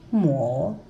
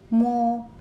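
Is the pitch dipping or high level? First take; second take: dipping; high level. First: The pitch dips low, then rises. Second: The pitch stays high and level.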